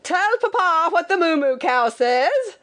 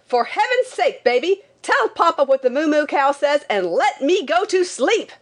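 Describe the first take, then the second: First: High, singsong papa calling out; insistent father's high-pitched call; pestering father. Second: High, exasperated outburst; frantic high-pitched cry without real volume; frantic mock shout. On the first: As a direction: coax the baby in a high put-on holler. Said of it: "and when he said". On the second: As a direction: plead high, desperate to be left to sleep. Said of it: "I shouted frantically". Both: A narrator's reading.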